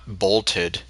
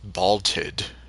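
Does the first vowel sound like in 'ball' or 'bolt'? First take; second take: bolt; ball. First: The first vowel sounds like the o in 'bolt'. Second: The first vowel sounds like the a in 'ball'. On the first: "Not bolted" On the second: "it sounds like she's saying it as B A L T E D"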